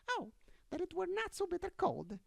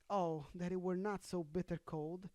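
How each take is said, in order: First: It is read in a put-on mouse voice. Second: It is read in a plain, normal voice.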